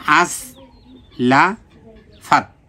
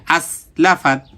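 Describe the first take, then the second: First: "আস, লা, ফাত" in separate pieces, pauses between; syllable by syllable. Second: "আস, লা, ফাত" run quickly together; all read quickly. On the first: Teacher sounds out the word for learners, "আস, লা, ফাত" syllable by syllable. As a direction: break "আস, লা, ফাত" apart with clear gaps. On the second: Teacher shows that every syllable is short, "আস, লা, ফাত" read quickly. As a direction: say "আস, লা, ফাত" promptly, without lingering. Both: Shown as a demonstration. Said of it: "সবগুলো তাড়াতাড়ি".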